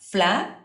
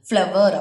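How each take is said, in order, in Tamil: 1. இது குறுகியாக சொல்லப்படுகிறது, 'flar' போல. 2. இது நீளமாக சொல்லப்படுகிறது, 'flower' போல. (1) "அதை நம்ம எப்படி ப்ரொனவுன்ஸ் பண்ணுவோம் அப்படின்னா ஃப்ளார்" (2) "ஃப்ளவர் அப்படி சொல்ல மாட்டோம்"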